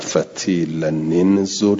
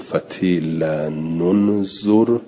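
First: The words are joined with an i vowel. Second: The words are joined with a u vowel. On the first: "حرک بالکسر" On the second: "حرک به ضم"

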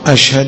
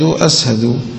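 First: The middle consonant is pronounced 'sh'. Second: The middle consonant is pronounced 's'. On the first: The speaker calls it right. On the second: The speaker calls it wrong.

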